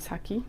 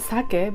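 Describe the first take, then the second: First: The word has an English pronunciation. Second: The word has a Japanese pronunciation. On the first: "so they say saki" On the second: "That's a sake"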